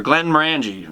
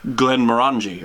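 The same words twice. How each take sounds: First: Glenmorangie with a short "a" as in "ran". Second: Glenmorangie with an open "ah", like mor-AHN-jee; Googled pronunciation. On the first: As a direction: say Glenmorangie as glen-mor-ANN-jee. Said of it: "It depends how redneck you are". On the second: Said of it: "how to say it". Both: Shown as a demonstration.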